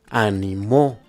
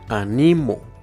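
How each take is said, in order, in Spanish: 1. La tónica está en la última sílaba. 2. La tónica está en la penúltima sílaba. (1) "si se encuentra en la última sílaba, sonará de la siguiente forma" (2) "si se encuentra en la penúltima sílaba, sonará de la siguiente forma"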